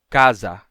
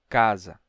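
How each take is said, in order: First: Both vowels are said with the same full sound. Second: The second vowel is weaker than the first. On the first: The speaker calls it wrong. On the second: The speaker calls it right.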